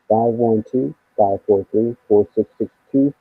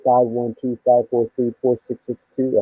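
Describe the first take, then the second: First: The number is said very slowly. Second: The number is said at normal speed.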